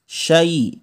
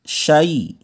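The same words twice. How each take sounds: Both takes have the same delivery.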